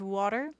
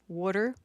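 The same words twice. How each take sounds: First: It is said in a standard accent. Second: It is said in a Philadelphia accent.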